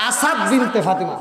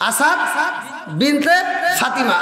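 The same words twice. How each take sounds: First: Said in the usual way. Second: Asad and Binte each rising, a pause, then Fatima falling; word by word. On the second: Shown as a demonstration. Preacher teaching the name, Asad Binte Fatima word by word with pauses.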